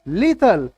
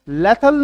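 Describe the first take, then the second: First: The first vowel sounds like 'ee'. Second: The first vowel sounds like 'eh'. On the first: The speaker calls it right. "आपको क्या बोलना है, लीथल" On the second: The speaker calls it wrong. "लेथल नहीं बोलना"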